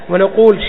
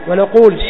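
The two takes are said the same way.

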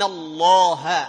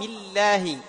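First: The L is thick and heavy, with a dark sound. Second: The L is thin and light, with a clear sound. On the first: "تغلظ" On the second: "لكن إذا سبقت بكسر ترقق"

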